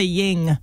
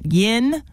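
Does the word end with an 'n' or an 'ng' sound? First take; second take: ng; n. First: The word ends with an 'ng' sound. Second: The word ends with a plain 'n' sound. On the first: The speaker calls it wrong. "A lot of people say ying" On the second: The speaker calls it right. "thank you for saying it right"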